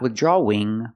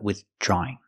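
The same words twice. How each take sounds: First: A W sound is inserted before the -ing ending. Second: The aw vowel links straight into -ing without W. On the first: The speaker calls it wrong. "Not withdrawing" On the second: The speaker calls it right. "but withdrawing"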